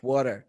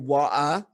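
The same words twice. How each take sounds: First: The final r sound is pronounced. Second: The final r sound is dropped. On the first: This is the older, original form kept in the United States. "in the United States, it's it preserved its original form like water" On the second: This is the later form that developed in Britain. "it evolved in Britain and became people became saying it like water"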